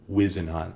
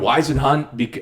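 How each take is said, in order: First: The first syllable sounds like 'whiz'. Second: The first syllable does not sound like 'whiz'. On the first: The speaker calls it right. "like you're taking a whiz" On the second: The speaker calls it wrong. "We've been mispronouncing it"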